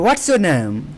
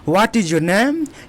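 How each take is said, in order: First: 'Is' is shortened to an s sound. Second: 'Is' is said as a full separate word. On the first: "इज को हम व्हाट्स बोलते हैं"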